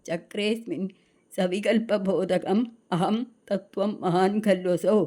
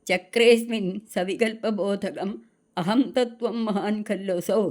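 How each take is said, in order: The two takes are said the same way.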